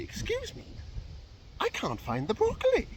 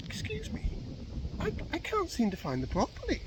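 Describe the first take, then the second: First: High-pitched, mock-irate shopper; hammed-up angry woman's voice; really angry customer. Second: High-pitched, hesitant customer voice; mock-polite high voice; customer asking politely. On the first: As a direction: act out an indignant customer, voice pitched up and pushed. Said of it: "she's getting really angry". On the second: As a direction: put on a higher voice for a puzzled shopper. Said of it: "she comes on the other way and she's like".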